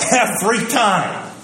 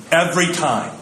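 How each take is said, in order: First: "Every time" higher and slower, "Every" stressed; emphatic repeat. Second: Said in the usual way. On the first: Shown as a demonstration. Preacher hammering home his point, slow and emphatic. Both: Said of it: "repeated for emphasis".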